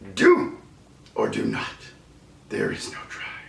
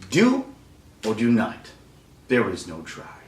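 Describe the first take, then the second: First: It is said in a put-on Yoda voice. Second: It is said in a natural speaking voice. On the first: "So you got the voice" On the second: "Do it with your own voice"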